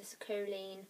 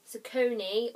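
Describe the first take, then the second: First: "Socoline" said with an L, ending in "leen"; mispronounced name. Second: "Soconi" said with an N, ending in "nee", louder; corrected name. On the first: Vlogger fumbling a YouTube family's name, mispronounced as "Socoline". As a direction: say "Socoline" with "leen" in place of "nee". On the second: Vlogger fixing her slip, corrected name "Soconi". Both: Real, not acted. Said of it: "I keep saying it wrong".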